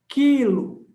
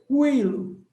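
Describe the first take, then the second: First: No u sound follows the k sound. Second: A rounded u sound follows the k sound. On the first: The speaker calls it right. "sua boca não passa nem perto de fazer o biquinho" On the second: The speaker calls it wrong. "se fosse quilo, qui, quilo. Se fosse quilo, aí o som do U sairia"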